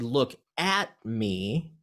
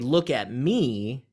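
First: The word 'at' is stressed. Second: The word 'me' is stressed. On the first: Don't look away from me. "if you accent the at, that has a different meaning than the first one" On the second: Look at me rather than anybody else. "that means don't look at anybody else, look at me"

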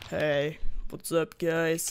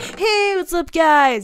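First: It is said flat and low-energy. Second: It is said with lots of energy.

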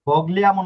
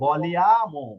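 First: A hard g is heard before the l. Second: No hard g is heard before the l. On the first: The speaker calls it wrong. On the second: The speaker calls it right.

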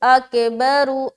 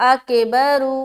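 The two takes are said the same way.

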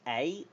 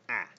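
First: The letter is said with a long vowel. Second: The letter is said with a short vowel. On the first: "a long A" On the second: "a short A"

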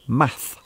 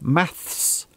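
First: The word ends with a 'th' sound and no 's'. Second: The word ends with an 's' sound. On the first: This is the American English form. "American English" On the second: This is the British English form. "British English"

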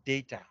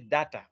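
First: It is said with a standard accent. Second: It is said with a mother-tongue accent. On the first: The speaker calls it right. "Data is the correct pronunciation" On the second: The speaker calls it wrong. "If you say data, that is mother tongue"

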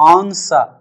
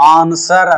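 First: The word ends without an r sound. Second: The word ends with an r sound. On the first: The speaker calls it right. "ఇక్కడ ఆర్ silent" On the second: The speaker calls it wrong. "ఆన్సర్ అనకూడదు"

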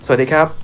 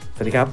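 First: The voice is turned up to full volume. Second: The voice sounds deeper with boosted bass. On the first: "ลองเร่งดังสุดให้ดูนะฮะ" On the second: "อันนี้จะเป็นในส่วนของเสียงเบส"

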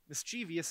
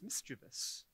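First: The word is said with four syllables. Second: The word is said with three syllables. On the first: The speaker calls it wrong. "mischievous isn't really a word" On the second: The speaker calls it right. "it's mischievous"

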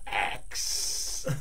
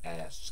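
First: The k sound comes before the s. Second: The s sound comes before the k. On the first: "I just say axe, like I'm chopping down a tree" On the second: "I pronounced it correctly, phonetically for English"

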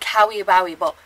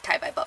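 First: Each syllable is said fully and clearly. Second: It is said fast with syllables squeezed together. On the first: "they're saying Kawi Bawi Bo" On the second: "You say really fast. It sounds like Kai Bai Bo"

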